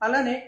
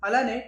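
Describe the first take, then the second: Both takes have the same delivery.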